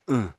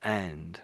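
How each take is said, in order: First: The word is reduced to a short schwa grunt. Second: The word is said in full with its consonants. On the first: "or uh rather than and" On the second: "rather than and"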